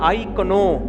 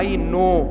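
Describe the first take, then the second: First: The word 'know' starts with a 'k' sound. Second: The word 'know' starts with an 'n' sound. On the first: The speaker calls it wrong. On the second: The speaker calls it right.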